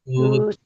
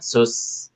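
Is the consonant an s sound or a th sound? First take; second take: th sound; s sound. First: The consonant is a th with tongue out. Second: The consonant is a plain hissing s. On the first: The speaker calls it right. "ujung lidah keluar sedikit" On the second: The speaker calls it wrong. "Masih terdengar seperti S biasa"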